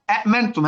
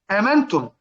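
First: "أأمنتم" with two distinct glottal stops; two separate hamzas. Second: "آمنتم" with one hamza and a long aa; long initial vowel. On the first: Teacher showing the word's root form, both hamzas sounded. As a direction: say "أأمنتم" stopping on the second hamza. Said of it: "همزتين". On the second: Teacher giving the word as it is read, hamza then long vowel. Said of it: "فآمنتم أصلها أأمنتم". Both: Shown as a demonstration.

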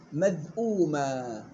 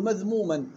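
First: مذءوما slowly with the hamza; correcting the student, مذءوما drawn out; sheikh's correction. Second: مذموما said with م instead of the hamza; retold wrong reading. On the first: Retold or imitated. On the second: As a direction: recall the student's slip مذموما. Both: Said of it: "لا، غلط".

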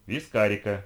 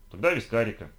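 First: Firm, cutting-off repeat; mildly stern insistence. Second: Said in the usual way. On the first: A narrator's reading. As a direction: insist sternly, allowing no objection. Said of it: "повторила она, строго взглянув на него". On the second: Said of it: "повторила она".

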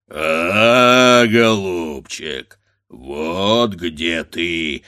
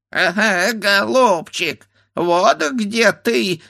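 First: Low, slow drawn-out roar; roaring bear. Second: High, slow bleating voice; bleating ram's head. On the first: A bear mocking the grandfather, roaring. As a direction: growl it like a bear. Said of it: "заревел медведь". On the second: A ram's head mocking from the tree, bleating. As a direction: bleat it like a ram. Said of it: "заблеяла баранья голова". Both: A narrator's reading.

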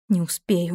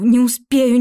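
First: Said in the usual way. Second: "не успею" louder and higher, panicking; rising panic on "не успею"; panicked. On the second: A narrator's reading. Heroine panics she won't make it, louder "не успею". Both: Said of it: "thought while running".

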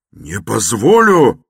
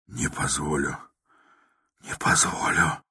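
First: Loud, high, slow furious shout. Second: Softer, whispered mechanical repeat. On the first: Raskolnikov shouting his refusal again, loud. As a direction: bellow the refusal. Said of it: "крикнул было другой раз". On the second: Raskolnikov repeating his refusal, whispered. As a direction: repeat it numbly under your breath. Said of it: "совершенным шёпотом". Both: A narrator's reading.

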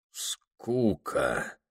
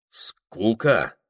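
First: Quiet, dazed and faraway, as if delirious; dazed whisper. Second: Said in the usual way. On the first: A narrator's reading. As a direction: murmur it as in a fever, much softer. («Скука?» тихо, как в бреду) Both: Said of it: "переспросил, словно в бреду".

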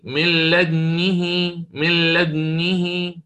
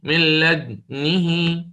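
First: Slow chanted من لدنه with lips rounded at the same time as the stilled dal; Quran recitation demo. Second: Slow chanted من لدنه, dal stilled first and lips rounded after it; Quran recitation demo. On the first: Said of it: "الثانية كما قلت بالتوازي". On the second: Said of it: "أسكن وبعدين أضم هكذا". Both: Shown as a demonstration.

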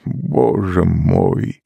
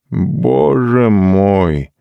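First: Slow sobbed boze moj, drawn out; a mild sob on «Боже мой!», very slow; sobbing. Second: Slow, higher «Боже мой!» squeezed out with effort; forced out. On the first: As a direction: Doon overcome by the song, sobbing. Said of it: "всхлипнул Дун". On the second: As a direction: push «Боже мой!» out as if words are hard to find. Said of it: "наконец выдавил он". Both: A narrator's reading.

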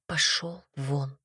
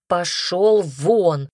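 First: Low, slow, much softer order to leave; hushed get out. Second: Slow, louder shouted order; shouted get out. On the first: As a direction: grit it out quietly. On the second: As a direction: blast him out of the room. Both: Acted. She throws him out.

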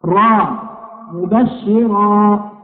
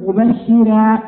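First: مبشرا stretched slowly with a full ra; heavy ra. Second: مبشرا with a light, thin ra; wrong thin ra. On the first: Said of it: "الراء هكذا تنطق". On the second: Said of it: "ما نقول". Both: Shown as a demonstration.

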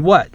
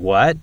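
First: What with a falling tune. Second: What with a rising tune. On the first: Showing the two intonations of what, falling. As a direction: let what drop. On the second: Showing the two intonations of what, rising. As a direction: lift the end of what. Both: Shown as a demonstration. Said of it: "The intonation difference between".

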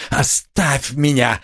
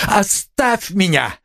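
First: Anguished cry. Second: Higher, slow, desperate plea; anguished cry. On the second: Raskolnikov begging Sonya to leave him, anguished cry. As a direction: cry it out in anguish, pitch climbing. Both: A narrator's reading. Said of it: "вскричал он вдруг в судорожной тоске".

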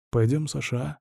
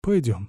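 First: Softer, begging plea; pleading. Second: Said in the usual way. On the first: A narrator's reading. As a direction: beg him to come along. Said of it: "умоляюще произнёс он". (умоляюще, тише) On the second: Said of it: "согласился я".

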